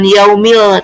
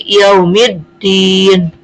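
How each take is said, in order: First: Slow "yaumil" ending on a clear l; wrongly sounded lam. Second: Slow "yaumiddin", no l, mim straight into a doubled d; merged lam. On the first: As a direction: say "yaumil" with the lam pronounced instead of merged. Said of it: "bukan yaumil". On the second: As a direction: recite "yaumiddin" drawn out with the lam melted into dd. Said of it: "tapi yaumiddin". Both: Shown as a demonstration.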